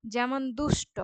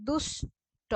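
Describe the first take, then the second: First: Said in the usual way. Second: দুষ্ট said as দুষ, then ট; দুষ্ট spoken syllable by syllable, দুষ and ট; split into syllables. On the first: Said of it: "এখানে দুষ". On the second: Shown as a demonstration. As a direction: break দুষ্ট apart at the syllable. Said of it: "এখানে দুষ রুদ্ধ দল".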